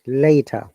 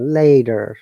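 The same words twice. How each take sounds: First: The T is strong and there is no R. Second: The T is flapped and the R is sounded. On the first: "This is Brit British English" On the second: "American English, T is flap T and R sound"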